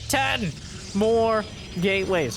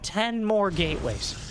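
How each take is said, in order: First: It is said in a more dramatic, heightened way. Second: It is said in a plain, less dramatic way.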